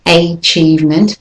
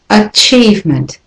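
First: Achievement with a full AY, AY-CHIEVEMENT; wrong way. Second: Achievement with a schwa start, uh-CHIEVEMENT; right way. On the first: Teacher shows how not to say achievement. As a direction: achievement begun with a long AY. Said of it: "the next word is not achievement". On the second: Teacher models achievement with a schwa. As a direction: achievement begun with a weak uh. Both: Shown as a demonstration.

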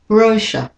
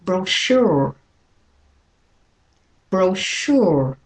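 First: "brochure" as BRO-shuh, first syllable high and stressed; British stress on brochure. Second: "brochure" slowly, as bro-SHOOR, second syllable stressed; American stress on brochure. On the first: Teacher repeats British model for learners, first-syllable stress on "brochure". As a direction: hit the "bro" of "brochure", drop the rest. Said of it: "for British and Australian". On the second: Teacher models American for learners, second-syllable stress on "brochure". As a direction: stretch and stress "SHURE" in "brochure". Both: Shown as a demonstration.

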